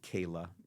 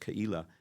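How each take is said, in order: First: The name has its usual English pronunciation. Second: The name has its Hebrew pronunciation. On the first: "we usually pronounce it Keilah" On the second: "in Hebrew, it's Keilah"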